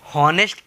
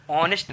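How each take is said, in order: First: हॉनेस्ट said with a clear h at the start; हॉनेस्ट with the h sounded, as a wrong reading; sounded h in honest. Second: ऑनेस्ट said starting on the o, no h; ऑनेस्ट with a silent h, as the correct reading; silent h in honest. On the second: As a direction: say ऑनेस्ट with the h dropped, the right way. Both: Shown as a demonstration. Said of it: "इसको हॉनेस्ट पढ़ते हो कि ऑनेस्ट पढ़ते हो".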